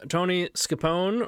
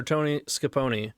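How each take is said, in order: First: Scapone ending in "pone", rhyming with "phone"; "Scapone" as skuh-POHN; silent final E. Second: Scapone ending in "ponee", rhyming with "pony"; "Scapone" as skuh-POH-nee; sounded final E. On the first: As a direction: say Scapone with no vowel after the N. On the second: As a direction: say Scapone with an EE after the N. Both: Shown as a demonstration. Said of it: "Is it pronounced".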